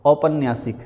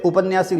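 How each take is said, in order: First: औपन्यासिक starting with "au"; correct form. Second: उपन्यासिक starting with short "u"; wrong form. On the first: Teacher gives right word, औपन्यासिक starting with "au". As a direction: open औपन्यासिक on a full "au". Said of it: "यहाँ पर आएगा औ". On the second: Teacher shows a mistake, उपन्यासिक starting with "u". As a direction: open उपन्यासिक on "u". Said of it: "जो कि गलत है". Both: Shown as a demonstration.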